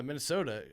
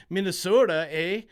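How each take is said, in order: First: Said in the usual way. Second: A hammed-up Minnesota accent, louder, with a Canadian eh. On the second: Shown as a demonstration. Betting host jokingly slips into Minnesota accent, playful Minnesota accent. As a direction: lean into the Minnesota accent for a joke. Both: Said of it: "I almost said it in a Minnesota accent".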